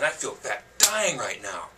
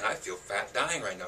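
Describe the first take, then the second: First: It is said in a strong, forceful voice. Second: It is said in a calm, ordinary voice.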